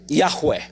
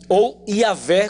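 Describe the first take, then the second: First: The name is said in a Hebrew-like way. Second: The name is said in a Portuguese-like way. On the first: "a maneira mais próxima do original" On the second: "como se diz de forma assim mais aportuguesada"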